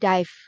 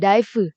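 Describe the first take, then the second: First: The word ends on the v sound, no vowel. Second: The word ends with an added vowel sound. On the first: The speaker calls it right. "nggak dibaca E-nya, jadi dive" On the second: The speaker calls it wrong. "bukan dive, right? You are not Japanese"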